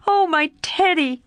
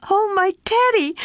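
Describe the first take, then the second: First: Joyful repeat. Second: High, joyful cry of a name; crying joyfully. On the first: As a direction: echo the name, still delighted. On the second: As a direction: call out his name in pure delight. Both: A narrator's reading. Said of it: "crying joyfully".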